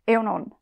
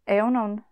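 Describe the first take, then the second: The two takes are said the same way.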